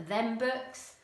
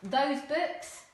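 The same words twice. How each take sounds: First: "Them books" said casually; casual dialect for "Them books"; non-standard English. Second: Said in the usual way. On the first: Shown as a demonstration. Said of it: "we might hear in non-standard". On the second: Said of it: "Standard English".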